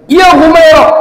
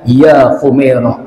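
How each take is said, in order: First: It is said in a raised, angry voice. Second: It is said in a calm, normal voice.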